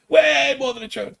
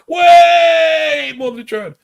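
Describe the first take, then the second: First: Said in the usual way. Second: A drawn-out, high, much louder yell; stretched shout. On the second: Pretend. Podcast host to listeners, mock-dramatic slow shout. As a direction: belt it out slowly like a chant. Hammering home a joke plea.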